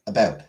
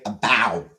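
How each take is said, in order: First: It is said in a Canadian accent. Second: It is said in an American accent. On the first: "Canadians say about" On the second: "Americans say about"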